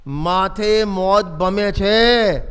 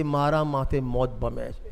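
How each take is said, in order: First: Each word drawn out slowly and weightily, "માથે મોત ભમે છે" said loud and grave; grave, loud, slow recital; solemn scripture quote. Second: "મારા" stressed, the rest slow and softer, turned inward; hushed, slow self-application; personal hushed echo. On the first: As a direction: read it slowly and heavily, like a warning carved in stone. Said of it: "જોજો ગજબ લખ્યું છે, ગજબ". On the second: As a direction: say it slowly and quietly to yourself, as your own death. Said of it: "આપણા માથે". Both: Shown as a demonstration.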